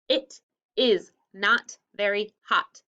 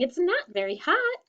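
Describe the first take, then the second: First: It is said in a calm, plain tone. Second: It is said in an excited tone.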